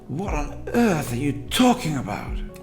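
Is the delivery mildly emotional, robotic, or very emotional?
very emotional. It is said with strong stress and pitch movement. "much more invested"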